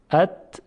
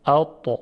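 First: ات with a thin, forward ت; ات said light and thin; plain light ت. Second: اتا with a thick, dark ط; اتا said heavy, sound thick in the throat; heavy emphatic ta. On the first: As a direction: say ات lightly, tongue flat. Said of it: "این ت دو نقطه هست". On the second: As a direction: raise the back of the tongue for اتا. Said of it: "این تای دسته دار هست". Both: Shown as a demonstration.

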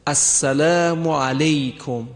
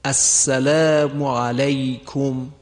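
First: علیکم said as alekom with e and o; mispronounced salutation; wrong pronunciation. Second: Slow السلام علیکم said alaykum with a clear fatha; careful recited salutation; correct pronunciation. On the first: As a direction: show the mistaken علیکم. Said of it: "سلام سوم رو میگویند". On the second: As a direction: stretch علیکم keeping the a pure. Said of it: "صحیحش به این صورته". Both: Shown as a demonstration.

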